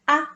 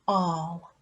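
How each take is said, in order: First: The vowel is a short 'a' sound. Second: The vowel is an 'or' sound. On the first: The speaker calls it wrong. "I'm just going to have a little go at sounding this word out" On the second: The speaker calls it right. "The a, l makes the, the sound ah"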